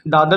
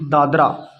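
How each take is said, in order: First: The name ends on the 'r' with no vowel. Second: The name ends with an audible final 'a' vowel. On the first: "यहाँ पर ए silent होता है" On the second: "हम ऐसे लिखते हैं D ए D R ए"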